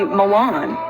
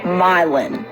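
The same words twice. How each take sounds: First: It is pronounced like the Italian city. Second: It is pronounced the local Tennessee way. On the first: "You'd think this would be Milan. Like, you know, the city in Italy" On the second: "No, it's Milan"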